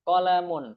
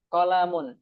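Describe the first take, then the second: The two takes are said the same way.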